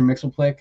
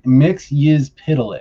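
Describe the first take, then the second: First: The name is squeezed into three syllables. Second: The name is sounded out in many syllables. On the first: This is a simpler habitual version. "that's just easier to say" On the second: This follows the comic's phonetic spelling. "sounds it out phonetically"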